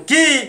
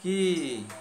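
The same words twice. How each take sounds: First: It is said loudly and gravely. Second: It is said in a normal, soft way.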